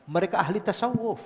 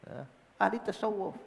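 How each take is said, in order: First: Said in the usual way. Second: Softer repeated "ahli tasawuf" as a hushed echo. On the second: Shown as a demonstration. Preacher echoing his own point to the congregation, softer. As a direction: let the repeat fall soft.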